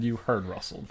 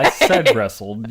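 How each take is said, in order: First: "rustled" with an "uh" vowel, RUSS-uld; misheard pronunciation. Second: "wrestled" with a clear "eh", RESS-uld; insistent correction. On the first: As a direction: show the mishearing, "rustled" rhyming with hustled. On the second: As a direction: loudly insist on "wrestled", through a laugh. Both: Real, not acted.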